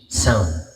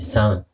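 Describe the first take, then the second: First: The voice has a hall-like echo effect. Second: The voice is dry with no added effect. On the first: "Ito yung meron" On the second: "Ito yung wala"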